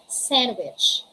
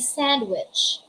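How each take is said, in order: First: The D sound is silent. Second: The D sound is clearly pronounced. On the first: The speaker calls it right. "It's sandwich" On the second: The speaker calls it wrong. "We don't say sandwich"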